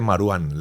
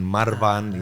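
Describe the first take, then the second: First: The middle consonant is a w sound. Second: The middle consonant is a v sound. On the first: The speaker calls it right. "la W es como pronunciación inglesa, como una U normal" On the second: The speaker calls it wrong. "todo el mundo decía Marwan, Marvan y esas cosas"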